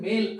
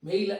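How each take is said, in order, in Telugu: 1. అచ్చు జారకుండా స్థిరంగానే ఉంటుంది. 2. అచ్చు 'y' శబ్దంలోకి జారుతుంది. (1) "మేల్ అనాలి" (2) "మెయిల్ అనే పలుకొద్దు"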